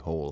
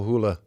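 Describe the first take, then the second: First: The name is pronounced the English way. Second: The name is pronounced the Norwegian way. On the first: The speaker is talking with English-speaking people. "with people in English-speaking countries, I say Hole" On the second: The speaker is talking with people in Norway. "When I'm in Norway, I go Hula"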